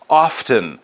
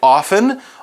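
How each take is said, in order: First: The T sound is pronounced. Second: The T sound is silent. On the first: "they might actually say that T sound" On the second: "I say often, although there is a T there"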